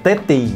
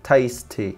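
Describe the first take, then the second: First: The s sound in the middle is dropped. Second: The s sound in the middle is clear. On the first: The speaker calls it wrong. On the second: The speaker calls it right.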